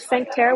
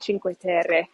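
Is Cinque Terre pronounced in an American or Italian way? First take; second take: American; Italian. First: It is said with an American English pronunciation. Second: It is said with an Italian pronunciation. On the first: The speaker calls it wrong. "Most people in the States call it" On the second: The speaker calls it right. "here they they call it"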